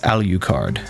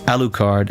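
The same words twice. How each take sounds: First: The middle U is heavily stressed, said 'yoo'. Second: The middle U is unstressed. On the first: The speaker calls it wrong. "heavily put uh, putting emphasis on the U" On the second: The speaker calls it right. "as it should be"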